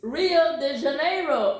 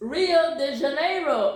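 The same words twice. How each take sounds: First: It is pronounced the way English speakers say it. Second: The same.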